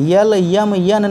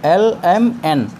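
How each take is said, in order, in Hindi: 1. अक्षरों के नाम y ध्वनि से शुरू होते हैं। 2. अक्षरों के नाम एक साधारण स्वर से शुरू होते हैं।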